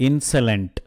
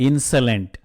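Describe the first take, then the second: The two takes are said the same way.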